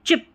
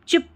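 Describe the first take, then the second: The two takes are said the same way.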